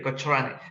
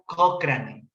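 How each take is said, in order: First: Every letter is sounded the Spanish way. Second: It is said with English-like sounds. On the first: This is how the name is written. "así se escribe" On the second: This is how the name is actually pronounced. "pero se pronuncia Cochrane"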